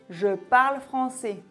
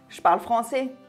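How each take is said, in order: First: It is faster, with one E sound dropped. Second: It is fastest, with two E sounds dropped. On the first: "si j'augmente un peu le débit... j'ai effacé un E" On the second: "si je parle encore plus vite... j'ai effacé deux E"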